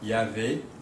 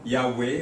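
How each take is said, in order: First: The middle consonant is a V sound. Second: The middle consonant is a W sound.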